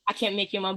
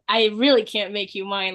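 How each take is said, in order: First: It is said flatly, without passion. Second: It is said passionately, with strong stress.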